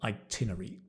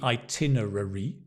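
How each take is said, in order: First: Some syllables are squeezed or dropped in the word. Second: Every syllable of the word is said fully. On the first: This is how British people often say it. "but we say itinerary" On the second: This is how it should be said. "It should be itinerary"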